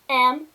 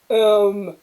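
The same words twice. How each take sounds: First: It is said in a normal voice. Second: It is said in a very deep voice.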